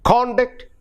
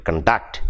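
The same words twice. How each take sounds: First: CON-duct, high on CON; "conduct" with CON punched and DUCT reduced; first-syllable stress. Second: Con-DUCT, weight on DUCT; second-syllable stress. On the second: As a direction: verb "conduct" with a light, reduced first syllable. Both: Shown as a demonstration. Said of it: "I hope you find the difference".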